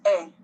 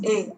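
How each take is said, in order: First: "A" as an open "eh", the è sound; accent grave sound. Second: "A" as a closed "ay", the é sound; accent aigu sound. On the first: Teacher contrasting two accents, "A" as open è. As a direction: say "A" like the e in English "set". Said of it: "Accent grave is A". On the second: Teacher contrasting two accents, "A" as closed é. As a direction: say "A" like French é. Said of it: "Accent aigu is A". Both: Shown as a demonstration.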